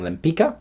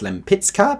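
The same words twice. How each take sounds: First: The name is given an American English pronunciation. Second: The name is given its Polish pronunciation. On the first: "everyone attached to the Broadway show is saying Lempicka" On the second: "that, I think, is the appropriate Polish pronunciation"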